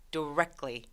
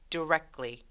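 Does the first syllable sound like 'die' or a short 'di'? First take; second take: short di; short di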